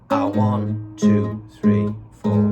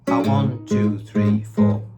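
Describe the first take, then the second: First: The count is said slowly. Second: The count is said at normal speed.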